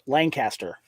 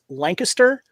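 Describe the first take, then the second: First: It is said the California way. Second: It is said the Pennsylvania way. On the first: "in California ours is pronounced Lancaster" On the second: "the Pennsylvania, I think it's pronounced Lancaster"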